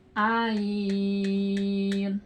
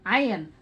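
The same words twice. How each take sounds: First: "Ain" held very long on a level pitch; six-count long Ain. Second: Said in the usual way. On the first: Shown as a demonstration. Teacher demonstrating six harkat to students, "Ain" drawn out evenly. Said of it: "itu harus dibaca enam harkat".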